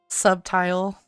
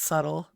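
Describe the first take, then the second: First: It is said like 'sub' plus 'tile'. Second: It is said as 'suttle', without 'tile'. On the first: The speaker calls it wrong. "This isn't a subway. We're not putting in subway tiles" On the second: The speaker calls it right. "It's subtle"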